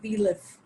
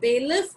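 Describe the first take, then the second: First: The first syllable has a short weak vowel. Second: The first syllable has a long 'ay' vowel. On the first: The speaker calls it right. "but belief" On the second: The speaker calls it wrong. "not bailiff"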